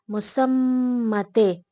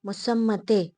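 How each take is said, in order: First: मुसम्मते said slowly, syllable by syllable, louder, falling at the end; slow careful Urdu term. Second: Said in the usual way. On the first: Shown as a demonstration. Teacher to students, drilling the Urdu word slowly. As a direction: spell out मुसम्मते slowly for the class.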